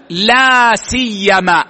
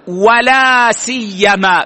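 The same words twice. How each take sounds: First: لا سيما said slowly with no و before لا; teacher models لا سيما without the و; pronunciation demo. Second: ولا سيما said slowly, the و clearly sounded; teacher models ولا سيما with the و; pronunciation demo. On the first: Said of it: "ويجوز حذف الواو". (نطق لا سيما بدون واو ببطء) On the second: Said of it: "بالواو". (نطق ولا سيما بالواو ببطء) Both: Shown as a demonstration.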